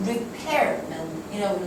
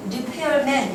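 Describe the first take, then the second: First: 리페어맨 with 페어 stressed; correct stress. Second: 리페어맨 read flat with even stress; wrong stress. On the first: Teacher contrasts correct stress with wrong one. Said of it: "리페어맨이라고 읽으셔야". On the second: Teacher shows students the mistaken reading. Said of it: "이렇게 읽는 게 아니고". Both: Shown as a demonstration.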